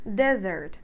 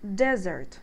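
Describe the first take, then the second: The two takes are said the same way.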